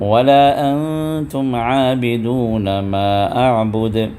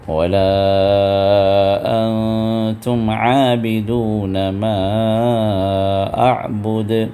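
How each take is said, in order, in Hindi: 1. 'la' का स्वर थोड़ी देर के लिए छोटा पढ़ा जाता है। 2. 'la' का स्वर ज़्यादा खींचकर पढ़ा जाता है। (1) "बग़ैर खींचे पढ़िए, दो सिर्फ दो हरकत की अदायगी के साथ" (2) "खींच कर पढ़िए"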